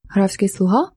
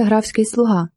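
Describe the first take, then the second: First: Surprised echo question. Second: Said in the usual way. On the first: Acted. Marshal echoing the lady's words back in surprise. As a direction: repeat it back with a rising, disbelieving lilt. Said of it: "перепитав мимоволі маршалок".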